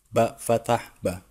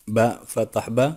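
The two takes are said the same way.

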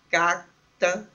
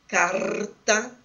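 First: The r is said as a quick flap. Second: The r is said as in gaúcho speech. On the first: "como em algumas partes de Curitiba, um flápio volar" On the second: "como em algumas variedades do dialeto, da variedade sociolinguística praticada no Rio Grande do Sul"

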